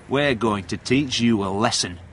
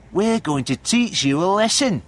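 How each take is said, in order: First: Understated bullying threat, little raised; mildly menacing, no real laugh; nasty threat. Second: High, put-on bullying jeer; raised, high-pitched threat; gang threat. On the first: Steve threatens cornered John, mildly nasty. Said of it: "with a nasty laugh". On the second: Third boy threatens caught John, high jeering menace. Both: A narrator's reading.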